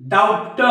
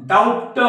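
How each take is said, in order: The two takes are said the same way.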